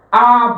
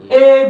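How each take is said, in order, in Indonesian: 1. Huruf "A" dilafalkan dengan cara Indonesia. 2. Huruf "A" dilafalkan dengan cara Malaysia. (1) "Kita melafalkannya apa?" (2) "Di Malaysia nggak ada pelafalan kayak begitu"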